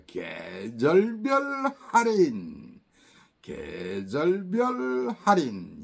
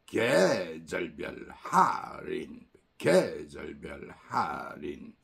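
First: 계절별 할인 slow, with 절별 pitched above 계; stress on 절별. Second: Low, slow stadium announcer reading 계절별 할인. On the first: Teacher demoing the emphatic 절별 rise for students. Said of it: "강조할 때는 개보다 절별을 더 들어줍니다". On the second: Teacher imitating a stadium announcer, slow and low. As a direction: call it out like a PA announcer. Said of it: "장내 아나운서처럼". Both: Shown as a demonstration.

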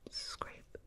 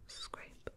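Both takes have the same delivery.

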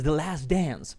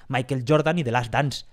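First: English accent slipping into Spanish talk; native-style English accent. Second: Put-on English names in a plain Spanish accent; everyday Spanish-accented English. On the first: Shown as a demonstration. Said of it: "a veces me sale". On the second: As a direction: say the names with Spanish vowels and sounds. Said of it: "pronunciarlo como lo pronunciamos todos".

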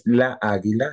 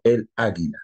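First: La águila with a stretched la; wrong article la águila. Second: El águila with el clearly said; el águila, a firm el before águila; correct el águila. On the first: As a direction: say la águila as the mistake. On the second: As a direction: say el águila as the right form. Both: Shown as a demonstration. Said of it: "No es la águila, sino el águila".

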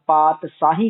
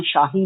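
First: "ਪਾਤਸ਼ਾਹੀ" as paat-saahi, with s; plain s sound. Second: "ਸ਼ਾਹੀ" as shaahi, with sh; sh sound. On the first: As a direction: use a plain s, not sh, in "ਪਾਤਸ਼ਾਹੀ". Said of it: "ਪਾਤਸ਼ਾਹੀ ਕਹਿਣਾ". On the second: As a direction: open "ਸ਼ਾਹੀ" on a hushing sh. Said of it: "ਸ਼ਾਹੀ ਨਹੀਂ ਕਹਿਣਾ". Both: Shown as a demonstration.

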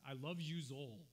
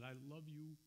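First: Imitating a father's Brooklyn accent; lightly put-on Brooklyn accent, heartfelt. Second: Said in the usual way. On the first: Son retells father's last words, in Brooklyn accent. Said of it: "let me say it in his Brooklyn, his Brooklyn accent". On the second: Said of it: "let me say it in his Brooklyn".

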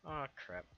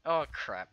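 First: Said in the usual way. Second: Sudden loud oh crap. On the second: Real, not acted. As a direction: blurt it out loud. Same words said twice.

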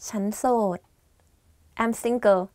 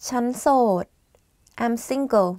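The two takes are said the same way.

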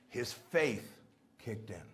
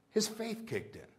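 First: "his faith kicked in" low, slow and hushed; slow quiet emphasis. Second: "His faith kicked in" repeated higher with weight on His; higher, softly insistent repeat; lifted restatement. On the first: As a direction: let it sink in slowly and softly. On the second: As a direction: raise the pitch for the echo. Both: Shown as a demonstration.

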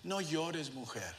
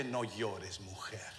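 First: Soft, tender, fading quietly; gentle words. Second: Low, soft disbelieving repeat; incredulous echo. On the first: Jesus to the grieving widow, soft and tender. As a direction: comfort her softly. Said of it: "Le dice". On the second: Preacher questioning the words to the widow, quietly incredulous. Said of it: "¿Cómo que". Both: Retold or imitated.

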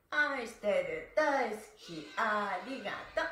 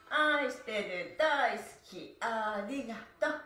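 Both takes have the same delivery.

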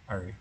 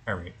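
Both takes have the same delivery.

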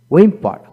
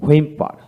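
First: হুইম্পার said "wimpa". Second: হুইম্পার said "hwimpa"; sounded H. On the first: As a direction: begin হুইম্পার on a plain w. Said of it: "আমেরিকানে অ উচ্চারিত". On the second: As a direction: begin হুইম্পার with h before the w. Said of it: "ব্রিটিশে হ উচ্চারিত হয়". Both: Shown as a demonstration.

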